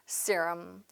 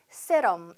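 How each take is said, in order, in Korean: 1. 영어식 모음과 강세로 발음해요. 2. 한국식 음절과 소리로 발음해요. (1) "발음을 정확하게" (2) "발음이 세럼 이런 느낌이 아니고요"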